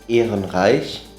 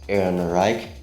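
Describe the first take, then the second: First: The name ends in a throaty ch sound. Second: The name ends in a hard k sound. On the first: The speaker calls it right. "normally you would say uh" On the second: The speaker calls it wrong. "it's then pron- pronounced as uh, K"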